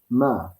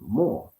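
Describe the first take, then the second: First: An e vowel sits between m and r. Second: An o vowel sits between m and r. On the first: "he put an E in between the M and the R" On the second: "they'll put a O in between"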